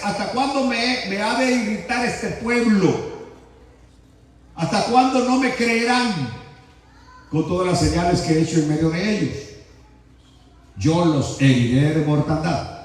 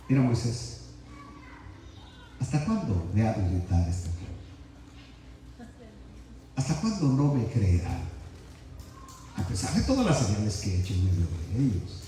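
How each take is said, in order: First: Medio bravo. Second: Much lower and softer, patient and gentle; calm, not angry. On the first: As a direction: read it half angry, like a scolding. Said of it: "Yo estoy hablando medio bravo". (un poco bravo, regañando) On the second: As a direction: say it calmly, like a patient father. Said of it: "Jehová no está hablando como yo estoy hablando". (tranquilo, más bajo y suave, sin enojo) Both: Shown as a demonstration.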